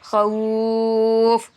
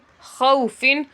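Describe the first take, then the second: First: The word stops right on the f sound. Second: The word ends with an -in ending after f. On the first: "बहालत वक्फ" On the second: "फा दो जेर फिन"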